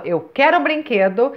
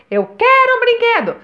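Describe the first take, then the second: First: Said in the usual way. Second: Put-on much higher, louder childish whine; high-pitched kid's repeat; whiny child. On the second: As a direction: wail it like a demanding kid. Child asking, escalating.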